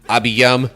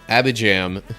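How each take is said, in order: First: The middle consonant is a Y sound. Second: The middle consonant is a J sound.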